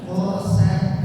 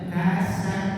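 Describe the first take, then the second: First: The first consonant is thick and deep. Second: The first consonant is thin and light. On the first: The speaker calls it right. "qaf dibaca tebal" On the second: The speaker calls it wrong.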